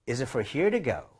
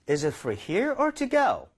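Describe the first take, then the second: First: It is said quickly and smoothly, words run together. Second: It is said at a normal, careful speed.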